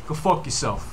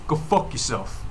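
No difference in how they are said.

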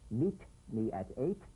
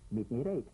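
First: The T in at is a crisp T. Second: The T in at is softened toward D. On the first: The speaker calls it wrong. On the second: The speaker calls it right.

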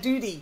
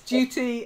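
First: It is said with an American accent. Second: It is said with a British accent. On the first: "If you want to say it like an American" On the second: "because I'm British"

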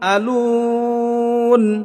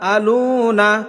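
First: The word ends on 'n' without a vowel. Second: The word ends with a final 'a' vowel. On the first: The reader stops at the end of the verse. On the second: The reading continues without a stop.

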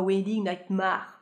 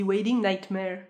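First: The title is said with French-style pronunciation. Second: The title is said with English pronunciation. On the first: The speaker calls it wrong. "Pas Wedding Nightmare" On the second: The speaker calls it right. "je sais qu'on dit Wedding Nightmare"

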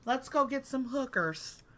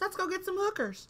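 First: It is said in the speaker's normal voice. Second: It is said in a put-on white-girl voice.

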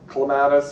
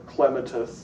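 First: It is pronounced in a non-British way. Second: It is pronounced in a British way.

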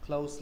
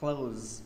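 First: The word ends with an s sound. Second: The word ends with a z sound. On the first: It means near. "Close là gần" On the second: It means to shut. "close âm Z là đóng"

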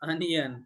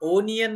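First: The word starts with a short 'uh' vowel. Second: The word starts with an 'o' vowel. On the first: The speaker calls it right. "Yes, अनियन" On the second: The speaker calls it wrong. "ओनियन नाही"

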